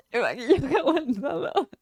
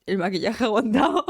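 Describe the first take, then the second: First: Aguantado laughed, teary and higher; laughing through tears. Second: Laughing. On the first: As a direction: laugh while still teary. (riendo entre lágrimas) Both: Real, not acted.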